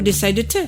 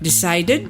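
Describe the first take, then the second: First: The ending is a plain t sound. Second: The ending is an extra syllable, id. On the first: The speaker calls it wrong. "ou decide te" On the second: The speaker calls it right. "on prend notre petite terminaison ed"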